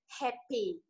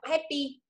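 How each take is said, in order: First: The h is said with a puff of breath. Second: The h is said without a puff of breath. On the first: The speaker calls it right. "Bây giờ mình ra hơi này" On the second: The speaker calls it wrong. "mình đọc không hơi nhá"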